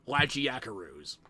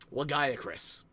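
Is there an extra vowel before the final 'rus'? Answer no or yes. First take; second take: yes; no. First: An extra vowel is added, giving 'carus'. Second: The ending is said as plain 'crus'. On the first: The speaker calls it wrong. "they pronounce Lagiacrus as Lagiacarus" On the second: The speaker calls it right. "everybody just agreed that it was Lagiacrus"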